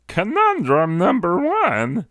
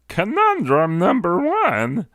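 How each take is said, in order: First: It is said in a special put-on voice. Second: It is said in a special put-on voice.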